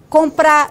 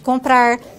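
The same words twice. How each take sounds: First: The final r sound is dropped. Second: The final r sound is pronounced. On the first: "elisão do R" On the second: "em vez de"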